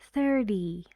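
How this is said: The middle consonant is a quick d sound. "Only in American English we say thirty, thirty, a very fast d instead of t"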